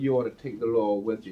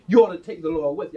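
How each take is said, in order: First: It is said flatly, like plain everyday talk. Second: It is said expressively, with strong feeling. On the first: It is just ordinary speech. The speaker calls it wrong. "if you're just speaking of, I might tell you" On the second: The words carry meaning and feeling. The speaker calls it right. "it has meaning. You know, it has feeling"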